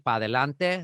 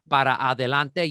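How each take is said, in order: First: The first word is cut to one syllable. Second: The first word keeps both of its syllables. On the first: "you just drop stuff" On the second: "instead of saying"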